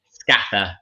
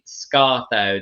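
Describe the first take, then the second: First: The name is said with local Grimsby pronunciation. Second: The name is said with standard pronunciation. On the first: "they'd say Scaffer" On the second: "they wouldn't say Scartho"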